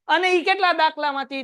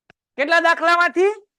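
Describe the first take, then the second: First: Said in the usual way. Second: "કેટલા દાખલામાંથી" asked louder and higher with a rise; stress on દાખલામાંથી. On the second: Shown as a demonstration. Teacher quizzing the class on how many sums, loud rising question. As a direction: punch "દાખલામાંથી" as a quiz question. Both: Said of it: "teacher quizzing class".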